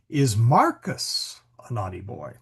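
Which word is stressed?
Marcus. The stress falls on the word Marcus. The question is really about Marcus. "The focus is actually on Marcus"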